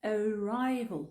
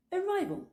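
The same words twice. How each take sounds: First: "Arrival" slow, as "uh-rye-vol"; schwa first A. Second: "Arrival" quicker and higher, as "uh-rye-vol"; natural-speed schwa. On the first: Teacher breaks down Arrival for learners, slow schwa start. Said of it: "le premier A comme si c'était un E". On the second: Teacher repeats Arrival whole, reduced vowels at natural speed. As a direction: say Arrival in one go, second A like O. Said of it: "le deuxième A comme si c'était un O". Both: Shown as a demonstration.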